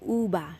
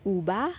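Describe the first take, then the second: First: The consonant sounds like a b. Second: The consonant sounds like a b.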